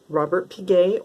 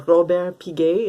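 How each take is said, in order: First: It is pronounced with English sounds. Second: It is pronounced with French sounds.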